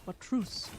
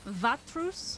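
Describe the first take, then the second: First: The name begins with a W sound. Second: The name begins with a V sound.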